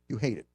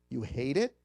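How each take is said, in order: First: The voice falls at the end, like a statement. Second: The voice rises at the end, like a question. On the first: The speaker calls it right. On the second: The speaker calls it wrong.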